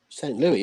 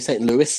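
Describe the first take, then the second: First: It is said the British way. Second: It is said the American way.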